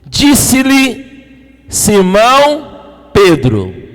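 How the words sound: The name is said with strong emphasis.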